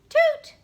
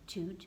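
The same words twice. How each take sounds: First: It is said loudly. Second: It is said softly.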